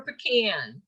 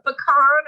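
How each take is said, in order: First: "pecan" with a short a; pecan as puh-KAN. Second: "Pecan" with a long ah; pecan as puh-KAHN. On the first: Trainer contrasting pronunciations, "pecan" as puh-KAN. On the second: Trainer contrasting pronunciations, "Pecan" as puh-KAHN. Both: Shown as a demonstration. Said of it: "Do you say".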